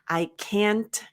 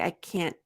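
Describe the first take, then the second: First: The final T is clearly released with air. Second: The final T is held with no air released. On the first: "say the T" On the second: "I often say can't and I don't say t"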